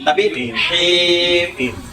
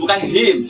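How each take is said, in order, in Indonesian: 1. Bunyi h-nya dipaksakan, kuat dan berdesah. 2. Bunyi h-nya polos, ringan. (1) "Saya saya paksakan karena supaya jelas"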